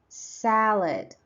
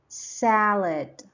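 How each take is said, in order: No difference in how they are said.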